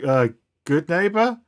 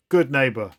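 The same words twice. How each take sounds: First: Hesitant, rising into an unsure question; meek response. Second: Restrained rallying call, falling at the end; mild mock yell. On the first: Acted. Half the street answering their leader, meek and unsure. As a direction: answer timidly, "neighbor" climbing high at the end. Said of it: "meekly respond". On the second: Leader yelling to her street, a firm mock yell. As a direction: call "Good neighbor!" firmly as a slogan. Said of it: "she yells".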